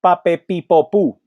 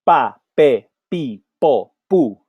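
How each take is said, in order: First: "pa, pe, pi" run together quickly; faster drill. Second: "pa, pe" unaspirated, even pace; P syllable drill. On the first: Teacher speeds up the P drill. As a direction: speed the syllables up. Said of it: "A little bit faster". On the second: Teacher drilling P syllables. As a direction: model each P syllable. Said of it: "we say". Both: Shown as a demonstration.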